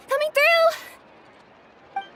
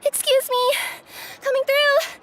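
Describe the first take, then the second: First: Very slow, high, stretched call rising at the end on "through"; drawn-out call. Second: Calling out. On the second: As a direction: shout ahead as you push through a crowd. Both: Acted. Courier rushing, calling out to crowd.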